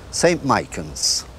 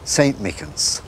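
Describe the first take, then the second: First: It is said in a Rathgar accent. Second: It is said in an inner-city Dublin accent.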